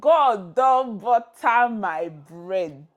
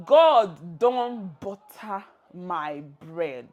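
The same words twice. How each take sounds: First: Very slow, loud, every word of "God don butter my bread" drawn out; announcing the phrase. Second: "God don butter my bread" repeated very slowly, stress on "God". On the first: Teacher unveiling the phrase of the day, slow and loud. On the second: Teacher repeating the phrase for learners, slow. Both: Shown as a demonstration. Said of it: "The pidgin phrase of the day is".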